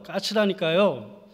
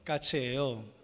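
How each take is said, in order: First: It is said with an angry outburst. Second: It is said calmly and plainly.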